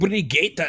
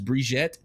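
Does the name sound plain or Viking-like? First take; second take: Viking-like; plain. First: The name is said in a rugged, Viking-like way. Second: The name is said in a plain, standard way. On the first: "sounds very Viking" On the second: "the proper one is"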